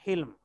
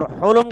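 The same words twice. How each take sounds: First: حلم said "hilm", with a short i; i after the H. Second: حلم said "hulum", with short u; u after the H. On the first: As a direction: say حلم with kasra on the ح. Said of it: "ہا کی زیر کے ساتھ". (حلم کو حا کی زیر سے "حِلم" پڑھیں) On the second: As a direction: say حلم with damma on the ح. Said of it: "ہا کے ضمے کے ساتھ". (حلم کو حا کے پیش سے "حُلم" پڑھیں) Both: Shown as a demonstration.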